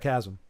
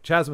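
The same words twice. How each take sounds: First: The word is pronounced in the standard way. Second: The word is deliberately pronounced in an altered way. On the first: The speaker calls it right. "instead of chasm" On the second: The speaker calls it wrong. "chasm instead of"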